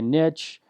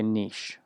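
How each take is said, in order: First: Niche said "nitch", short i and tch; American pronunciation. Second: Niche said "neesh", long ee and sh; British and Canadian pronunciation. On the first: Showing viewers how America says it, niche as "nitch". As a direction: say niche to rhyme with "rich". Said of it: "in America, they say". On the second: Showing how England and Canada say it, niche as "neesh". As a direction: say niche to rhyme with "leash". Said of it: "they say niche". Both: Shown as a demonstration.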